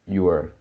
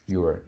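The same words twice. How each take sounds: First: The two words are joined into one. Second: The two words are joined into one.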